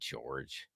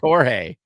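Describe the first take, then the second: First: The name is said the English way. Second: The name is said the Spanish way. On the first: The speaker calls it wrong. "it's not George" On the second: The speaker calls it right. "I think it's Jorge 'cause it's Spanish"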